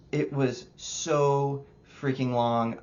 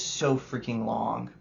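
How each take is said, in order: First: Slow stretched "so freaking long"; drawn-out emphasis. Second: Said in the usual way. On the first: Real, not acted. Reviewer repeating the complaint to stress how long it felt, slow and stretched. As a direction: drag out "so" to show the tedium.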